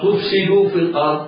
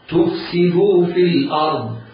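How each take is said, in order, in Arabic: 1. الحركة بعد السين تميل إلى الضمة. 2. كسرة السين واضحة. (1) "تقرب من الضام، لا تجد للكسرة معالم" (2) "حاول قدر استطاعتك أن تظهر كسرة السين هكذا. اسمع"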